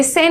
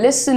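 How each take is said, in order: First: Listen said wrongly as "li-SEN"; listen with a clear "e" in the second syllable; mispronounced listen. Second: Listen said "LIS-n", weak second syllable; listen with the stress up front, "LIS-sn"; correct pronunciation. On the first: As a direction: give listen a full "sen" ending. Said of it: "अब ये listen नहीं है". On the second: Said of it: "listen है". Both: Shown as a demonstration.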